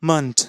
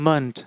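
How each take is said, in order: No difference in how they are said.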